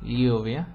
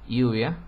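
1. La palabra empieza con un sonido lateral palatal ly. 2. La palabra empieza con un sonido y simple. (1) "todavía se distingue entre el sonido de las palabras escritas con L, LL" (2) "estas dos sonidos se unifican en uno, generalmente I"

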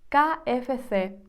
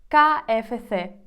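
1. Літери називають по-іспанськи. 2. Літери називають по-іспанськи.

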